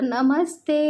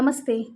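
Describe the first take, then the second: First: The word is loud and drawn out very long. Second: The word is said quickly and briefly.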